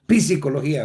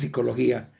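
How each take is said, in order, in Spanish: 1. La P inicial se pronuncia claramente. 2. La P inicial es muda. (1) "pero no decimos psicología" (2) "Sino que decimos psicología"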